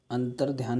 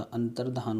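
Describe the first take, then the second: First: अंतर्ध्यान said with ध्या, a y after ध; teacher voices the mistaken अंतर्ध्यान, with ध्या; wrong form said. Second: अंतर्धान said with plain धा, no y; teacher gives the right अंतर्धान, with धा only; correct form said. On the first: Teacher shows students the wrong अंतर्ध्यान, said plainly. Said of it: "अंतर्ध्यान नहीं होता". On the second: Teacher corrects students to अंतर्धान, said plainly. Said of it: "अंतर्धान होता है". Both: Shown as a demonstration.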